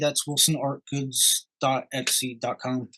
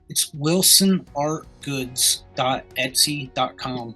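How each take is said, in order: First: It is said at normal pace and volume. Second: It is said slower and louder.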